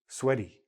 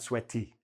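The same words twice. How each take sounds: First: The middle consonant sounds like a soft D. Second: The middle consonant is a clear T. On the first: The speaker calls it right. "often sound like D" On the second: The speaker calls it wrong.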